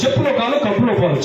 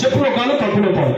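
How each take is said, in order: No difference in how they are said.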